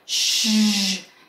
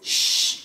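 First: The sound is voiced, a buzzing zh. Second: The sound is voiceless hissing with no voice. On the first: "And now activate your voice" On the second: "go first to the voiceless consonant"

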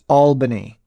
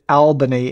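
First: The first syllable rhymes with 'ball'. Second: The first syllable rhymes with 'pal'. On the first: The speaker calls it right. "he corrected me that it's pronounced Albany" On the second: The speaker calls it wrong. "I pronounced it Albany"

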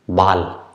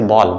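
First: The word has the German vowel sound. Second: The word has the English vowel sound. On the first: "but in German we say ball" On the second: "In English we say ball"

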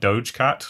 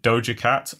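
First: The first word ends in a consonant sound. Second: The first word ends in a vowel sound. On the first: The speaker calls it wrong. "I thought it was like Doge Cat, like Doge Dog, because I'm an idiot" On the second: The speaker calls it right. "you just pronounced it Doja Cat"

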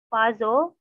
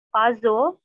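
Both takes have the same delivery.

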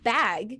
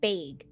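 First: The word is said in a General American accent. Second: The word is said in a Minnesotan accent. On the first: "you take the word bag" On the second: "they say bag"

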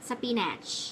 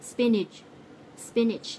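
First: The final 'ch' sound is strong and harsh. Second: The final 'ch' sound is soft and light. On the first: The speaker calls it wrong. "คนไทยส่วนใหญ่จะอ่านว่า ... ฉุฉุเลย" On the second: The speaker calls it right. "ออกเสียงให้ถูกต้องจะต้องออกเสียงเป็น"

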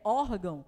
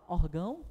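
First: The stress is on the first syllable. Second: The stress is on the last syllable. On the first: The speaker calls it right. "É órgão" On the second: The speaker calls it wrong. "Você fala órgão? Não, né?"

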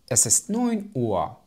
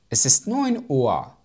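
No difference in how they are said.

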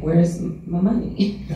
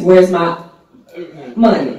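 First: It is said in a soft voice. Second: It is said in a louder voice. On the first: A polite first request for payment. "when the soft voice is not working" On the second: A forceful demand after politeness failed. "And then it gets"

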